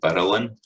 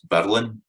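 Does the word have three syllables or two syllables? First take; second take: three; two. First: An extra vowel gives the word three syllables. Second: The word is said in just two syllables. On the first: The speaker calls it wrong. "It's not burlin" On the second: The speaker calls it right. "becomes just two syllables"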